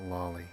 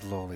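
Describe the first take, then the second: First: The first vowel sounds like 'ah'. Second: The first vowel sounds like 'oh'. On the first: The speaker calls it wrong. "it's not lolly" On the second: The speaker calls it right. "it is loli"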